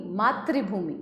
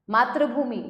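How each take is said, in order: First: Said in the usual way. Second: मातृभूमि said as "maa-tra-bhoomi"; मातृभूमि with "ra" in the middle; misspelt ra sound. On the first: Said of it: "री और र". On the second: Shown as a demonstration. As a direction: swap "tri" for "tra" in मातृभूमि. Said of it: "री और र की अशुद्धियां".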